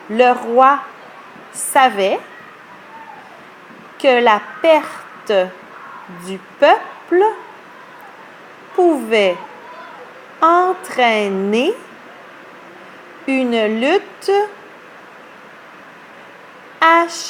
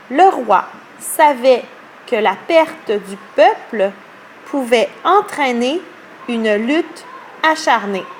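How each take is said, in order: First: It is read more slowly. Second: It is read at normal speed.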